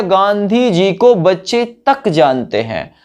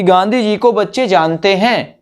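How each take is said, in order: First: तक slow and emphatic; stress on तक. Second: Said in the usual way. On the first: Shown as a demonstration. Teacher shows students how तक adds stress, slow emphasis. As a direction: slowly lean on तक. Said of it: "तक word ने जोर दे दिया". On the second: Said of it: "ये भी कह सकते थे".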